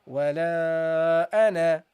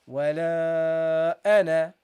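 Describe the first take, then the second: No difference in how they are said.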